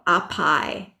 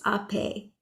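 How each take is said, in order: First: The word ends with an 'eye' vowel sound. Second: The word ends with an 'ay' vowel sound. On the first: The speaker calls it wrong. "my brain wants to go to pronounce that" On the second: The speaker calls it right. "but it's ape"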